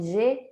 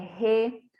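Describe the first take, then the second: First: It begins with a soft 'zh' sound. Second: It begins with a harsh throaty sound. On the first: This is how the letter sounds in Portuguese. The speaker calls it wrong. "o G não é G" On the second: This is how the letter sounds in Spanish. The speaker calls it right. "é R; o G eu pronunciei com som de R da língua portuguesa"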